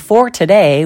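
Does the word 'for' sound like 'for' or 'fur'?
for. The vowel in 'for' is a full 'or' sound. The speaker calls it right. "we don't say for today"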